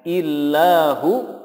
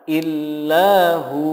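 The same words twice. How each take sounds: First: The final vowel is held short. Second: The final vowel is held long. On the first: The speaker calls it wrong. "illahu pendek" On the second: The speaker calls it right. "yang benar adalah illahu"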